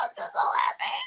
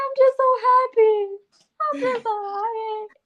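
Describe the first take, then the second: First: Breathy whispered sob; whispered happy crying. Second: High, wobbly crying-happy voice; mock happy crying. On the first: Retold or imitated. A woman mimics her own happy crying in a whisper. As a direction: whisper it through tears. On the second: A woman retells crying happy tears on her cycle. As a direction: blubber it out happily. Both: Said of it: "I said".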